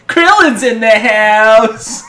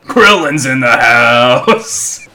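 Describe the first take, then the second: First: Slow, drawn-out cartoon call; Krillin voice. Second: Low, slow cartoon shout; Krillin voice. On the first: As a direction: announce it like Krillin. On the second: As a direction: bellow it like Krillin. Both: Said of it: "it's in the Krillin voice".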